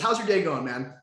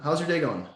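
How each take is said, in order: First: It is said with high, lively energy. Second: It is said with low, flat energy.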